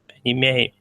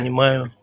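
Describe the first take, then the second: First: The m sound is soft. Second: The m sound is hard. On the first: The speaker calls it wrong. "If you say понимаю, me, it's soft" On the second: The speaker calls it right. "m is hard"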